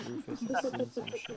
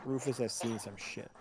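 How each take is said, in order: First: A touch higher, mock-grizzled dog voice; lightly voiced gruff Rufus. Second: Said in the usual way. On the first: GM voicing the dog for the players, mock-grizzled. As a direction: give the dog a hint of a war-weary voice. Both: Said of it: "repeated in a new voice".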